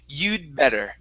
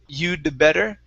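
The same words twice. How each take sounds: First: The D runs straight into the B. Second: The D is fully released before better. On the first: The speaker calls it right. "it's like the D and the B are right together" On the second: The speaker calls it wrong. "we don't want to say"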